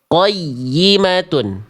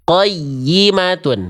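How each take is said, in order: Both takes have the same delivery.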